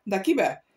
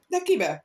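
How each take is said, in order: First: Said in the usual way. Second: High, loud eager question. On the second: Acted. The adventurers eagerly ask who Loredano loves. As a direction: jump in wanting the gossip. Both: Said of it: "kérdezték többen össze-vissza".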